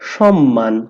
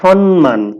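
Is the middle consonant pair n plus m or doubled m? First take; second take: doubled m; n plus m. First: The middle consonant is a doubled m. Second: The middle consonants sound like n then m. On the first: The speaker calls it right. "দুইবার ম উচ্চারণ করব আমরা" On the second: The speaker calls it wrong. "বেশিরভাগ মানুষ উচ্চারণ করে সম্মান"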